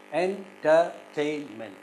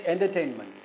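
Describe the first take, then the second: First: Slow "entertainment" split into four syllables; "entertainment" with each syllable set apart. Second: "entertainment" said whole, weight on TAIN; "entertainment" joined up, stressing TAIN; stress on third syllable. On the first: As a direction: break "entertainment" into en, ter, tain, ment. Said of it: "how to syllabify this". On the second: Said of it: "the third syllable is stressed". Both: Shown as a demonstration.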